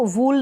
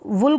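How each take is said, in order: First: वूल with a stretched oo; the mistaken वूल, oo held long. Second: वुल with a quick, short u. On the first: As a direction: draw out the vowel of वूल. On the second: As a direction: keep the vowel of वुल brief. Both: Shown as a demonstration. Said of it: "वुल को वूल ना पढ़ें".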